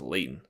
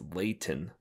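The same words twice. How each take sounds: First: The middle T sound is dropped. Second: The middle T sound is clearly pronounced. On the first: This is how locals say it. "they don't say the T, so it's just Layton" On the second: This follows how the name is spelled. "It's like no, it's Layton"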